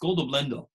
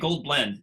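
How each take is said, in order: First: Japanese style, with an extra vowel after each word. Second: Plain English, with consonants ending each word. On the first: "It's goldo blendo. Like they always add a syllable" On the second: "They can't say gold blend"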